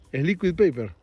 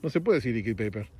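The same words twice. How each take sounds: First: "liquid" dicho a la española, "li-quid", con fuerza; pronunciación correcta. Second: Said in the usual way. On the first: Shown as a demonstration. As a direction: remarca "liquid paper" como se dice en Argentina. (corrige con firmeza: "Es liquid paper") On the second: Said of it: "no puedes decir liquid paper".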